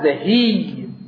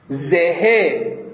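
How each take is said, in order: First: The final vowel is drawn out long. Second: The final vowel is short and quick. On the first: "به گونه ما تطویل ایجاد بکنیم که حرکت تبدیل بشه به حرف مناسب" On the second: "حرکت رو خفیف و سریع تلفظ بکنیم مع عدم اطالت صوت"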